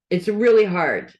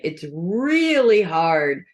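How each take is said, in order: First: Said in the usual way. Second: "really" drawn out and leaned on, the whole line slowed; slow, weighted "It's really hard"; slow emphasis. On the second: Shown as a demonstration. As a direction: stretch "really" to land the point.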